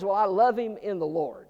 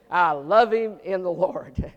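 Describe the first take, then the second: First: Said in the usual way. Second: Slow, syrupy religious tone; pious churchy drawl. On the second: Retold or imitated. Pastor mocking a pious excuse, slow and syrupy. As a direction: say it like a sanctimonious church member. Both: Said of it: "You ever say that?".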